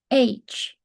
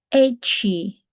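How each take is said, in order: First: It ends cleanly with no added vowel. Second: It ends with an extra 'ee' vowel. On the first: The speaker calls it right. "好似個A 加個H 咁樣" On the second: The speaker calls it wrong. "唔小心加咗個E 音"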